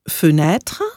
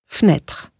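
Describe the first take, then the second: First: The first e is pronounced as a vowel. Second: The first e is dropped entirely. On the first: "einmal mit ausgesprochenem E als Ö" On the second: "und einmal ohne"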